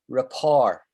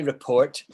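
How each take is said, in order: First: It sounds like ra-PORE with no final t. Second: It sounds like re-PORT with a final t. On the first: The speaker calls it right. "We say rapport, the French way of saying it" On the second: The speaker calls it wrong. "we don't say report"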